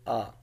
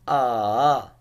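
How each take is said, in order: First: The pitch is short and light, without contour. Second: The pitch dips down and then rises. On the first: "the neutral tone, which is like there's no tone of it" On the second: "the third tone ah, that going down and then going up"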